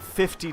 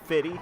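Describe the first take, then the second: First: The second F is pronounced clearly. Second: The second F is softened or dropped. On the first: "I pronounce that second F pretty, pretty distinctly" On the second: "If I was a little bit more casual"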